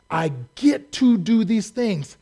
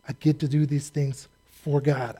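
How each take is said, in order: First: Slow, bright I get to do these things with a lift on to; excited get to. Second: I get to do these things for God, softer and settled; quieter, for God. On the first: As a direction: savor the words get to, pleased with yourself. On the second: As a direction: answer the question gently, landing on for God. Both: Shown as a demonstration. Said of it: "For who?".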